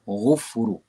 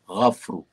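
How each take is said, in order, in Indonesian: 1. Vokal pertama adalah u. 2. Vokal pertama adalah a. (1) "jangan baca ghufru" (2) "dengan baris atas pada huruf ghin"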